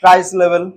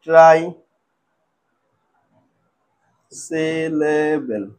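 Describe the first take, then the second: First: Said in the usual way. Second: "ট্রাইসিলেবেল" extremely slow, with a long gap after "try"; lower, drawn-out "ট্রাইসিলেবেল", piece by piece; broken into syllables. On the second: Shown as a demonstration. Teacher writing out the term for students, "ট্রাইসিলেবেল" slowly broken up. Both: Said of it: "ছোট ছোট টুকরো করে ভাঙবো".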